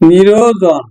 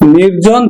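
First: A vowel is inserted between r and j. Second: The r and j sounds are joined directly. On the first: "বিপ্রকর্ষ স্বরভক্তি বা মধ্য স্বরাগম" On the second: "শব্দের মধ্যে যদি স্বরধ্বনি চলে আসে"

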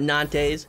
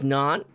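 First: The name is said with an English pronunciation. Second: The name is said with a French pronunciation. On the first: The speaker calls it wrong. "It is not Nantes" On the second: The speaker calls it right. "it is French. ... it is Nantes"

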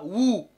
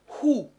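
First: The word starts directly with the vowel. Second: The word starts with a breathy h sound. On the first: The speaker calls it wrong. "Je ne dis pas ou" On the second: The speaker calls it right. "mais je dis who"

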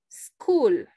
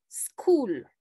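The two takes are said the same way.

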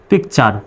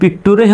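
First: The word ends with a 'chur' sound. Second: The word ends with a 'tooree' sound. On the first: The speaker calls it right. "সার উচ্চারণ হবে চার" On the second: The speaker calls it wrong. "পিকটুরি কিন্তু হবে না"

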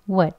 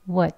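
First: The vowel is short and reduced to schwa. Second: The vowel is short and reduced to schwa.

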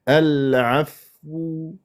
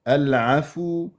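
First: The f is held with no vowel after it. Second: The f is followed by a short u vowel. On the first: The speaker calls it right. "العفو هكذا حتى لا يصير عفو" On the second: The speaker calls it wrong. "ضميت الفاء والفاء ساكنه"

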